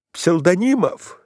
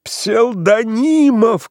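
First: Calling out. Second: Псевдонимов cried high, loud and slow; desperate cry. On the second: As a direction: wail Псевдонимов in despair. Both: A narrator's reading. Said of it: "кричал Иван Ильич".

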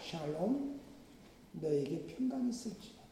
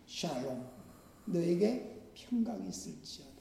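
First: Softer, hushed voice of Jesus's blessing; soft tender blessing. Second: Very soft, hushed words of peace; hushed tender blessing. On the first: Preacher voicing Jesus greeting frightened Peter, softly and tenderly. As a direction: speak peace gently, almost hushed. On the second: Jesus greeting trembling disciples, softer and tender. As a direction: breathe the blessing out gently. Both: Acted.

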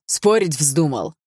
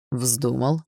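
First: Father daring his son to argue; menacing challenge. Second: Calm echo. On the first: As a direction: lean in and dare him. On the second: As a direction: throw it back calmly. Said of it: "спокойно ответил Барс". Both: Acted.

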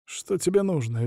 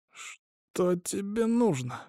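First: Strained question. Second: Soft, high, drawn-out wheeze; wheezed question. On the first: Recovering hostage demanding his captor's motive, strained. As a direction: ask it with a slightly tight throat. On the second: Hostage with a syringe in his neck, wheezing. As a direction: squeeze the words out slowly and quietly. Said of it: "просипел Айзатов". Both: A narrator's reading.

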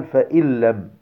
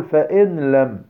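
First: "فإن لم" as "fa-il-lam", doubled L; noon merged into laam. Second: "فإن لم" with a clear N, "fa-in lam"; wrong unmerged noon. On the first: Teacher showing what we say, noon merged into laam. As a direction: drop the N of "فإن" straight into "لم". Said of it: "النون في اللام، فنقول". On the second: Teacher showing what not to say, noon left unmerged. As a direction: keep the N of "فإن" apart from "لم". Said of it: "لا نقل". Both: Shown as a demonstration.

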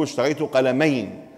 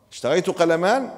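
First: قلمين said with the ‑ayn ending, falling firmly; the correct form. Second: قلمان with the long A ending, rising at the end as if questioning it; quoting the wrong form. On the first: Shown as a demonstration. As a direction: model the right form قلمين, ending ‑een, with a falling close. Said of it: "لازم نقول". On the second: Retold or imitated. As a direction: repeat the student's mistake قلمان, ending ‑aan. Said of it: "مو نفس العبارة الذي قالها وعاتبناه عليها".

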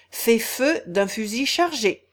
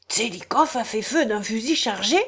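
First: Said in the usual way. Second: Brisk disbelieving question; a gentleman snapping back in disbelief; quick incredulous rise on feu; lively question. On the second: Acted. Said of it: "dit vivement".

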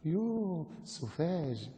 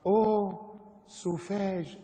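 First: Soft, drawn-out affected scorn; mock disgust. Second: High, affected exclamation; mock French horror. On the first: Preacher mimics westernised scoffer at the devout, mock disgust. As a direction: draw it out softly with affected distaste. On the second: Preacher reads French caption on bitten soldier, mock horror.

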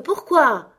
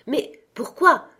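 First: A higher, louder why, falling hard; crying out. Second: Mild mock cry of why, higher and slow; exclaiming. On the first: Nephew pressing his uncle for a reason, louder cry. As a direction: call the second why out louder. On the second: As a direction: ask why with a slow rising plea. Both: A narrator's reading. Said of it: "s'écria son neveu".

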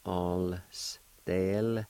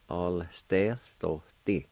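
First: "All stealthy" slowly, broken into syllables; syllable-by-syllable pronunciation. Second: Said in the usual way. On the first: Shown as a demonstration. Teacher showing learners how it'll sound, slowly sounded out. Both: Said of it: "it'll sound something like this".

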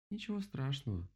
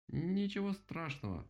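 First: Said in the usual way. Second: Slow, higher-pitched stuttering woodpecker; drawn-out stammer. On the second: A narrator's reading. Woodpecker forgiving the rabbit, slow halting stammer. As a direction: stretch the first sound haltingly, pitched up.

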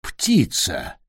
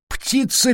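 First: Low creaky exclamation. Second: Sudden high creaky squeak. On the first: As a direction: croak it out low and rough. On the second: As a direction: jump way up on the word Птица. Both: A narrator's reading. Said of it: "скрипучий голос".

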